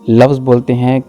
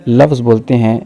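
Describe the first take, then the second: No difference in how they are said.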